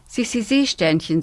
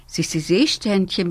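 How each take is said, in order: First: Trying out a new name; zur Probe. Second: Repeating the new name with a falling close; wiederholend. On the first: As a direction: say it tentatively, testing the sound. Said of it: "sagt die kleine Nixe zur Probe". (probeweise gesagt) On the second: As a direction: say it again, settling on it. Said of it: "wiederholt sie". (bestätigend wiederholt) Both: A narrator's reading.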